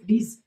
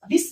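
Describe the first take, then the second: First: It has a long 'ee' vowel and ends in z. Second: It has a short 'i' vowel and ends in s. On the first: The speaker calls it right. "डीज बोले" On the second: The speaker calls it wrong. "डिस नहीं"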